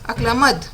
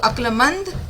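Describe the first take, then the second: First: No nasal sound comes before the final d. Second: A nasal sound comes before the final d. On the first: The speaker calls it wrong. "अक्लमद लिखा है" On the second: The speaker calls it right. "बिल्कुल सही, अक्लमंद"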